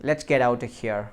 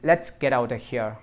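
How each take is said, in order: The two takes are said the same way.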